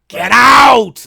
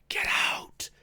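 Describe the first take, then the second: First: It is yelled loudly. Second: It is said quietly.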